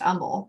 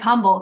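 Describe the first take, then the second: First: The word begins with a vowel sound. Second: The word begins with an h sound. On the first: The speaker calls it right. "You don't say the H. ... but it's pronounced humble" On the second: The speaker calls it wrong. "It's spelled like humble"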